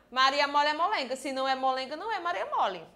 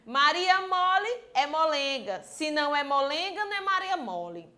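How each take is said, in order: First: It is said quickly, rushing through the words. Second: It is said at an ordinary, unhurried pace.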